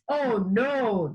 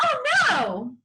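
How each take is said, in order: First: It is said flatly, without surprise. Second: It is said with a gasp, surprised.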